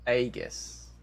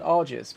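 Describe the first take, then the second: First: The first syllable sounds like 'ay'. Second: The first syllable sounds like 'ar'. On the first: The speaker calls it right. "It's Aegis" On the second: The speaker calls it wrong. "I always say Ardent Argis"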